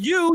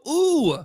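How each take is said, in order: First: The vowel is said with a 'y' glide, like 'you'. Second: The vowel is a plain 'oo' with no glide. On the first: The speaker calls it wrong. "You wouldn't say the word U" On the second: The speaker calls it right. "You go ooh"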